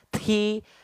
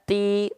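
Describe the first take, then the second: First: The t releases a heavy, exaggerated puff of breath. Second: The t releases only a light puff of breath. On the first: The speaker calls it wrong. "nggak seperti itu" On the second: The speaker calls it right. "cukup kita lafalkan"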